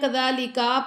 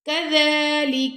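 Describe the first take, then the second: First: The final vowel after the k is drawn out. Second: No vowel is drawn out; all are short. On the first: The speaker calls it wrong. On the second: The speaker calls it right.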